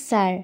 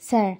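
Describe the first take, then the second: Both takes have the same delivery.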